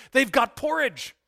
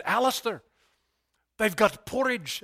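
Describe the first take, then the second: First: Higher, louder gleeful exclaim; excited Scottish pastor spotting porridge on the menu; excited repeat. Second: Said in the usual way. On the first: Retold or imitated. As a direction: burst out with delight over the porridge. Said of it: "fill in a Scottish accent there". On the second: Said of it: "skip the brogue".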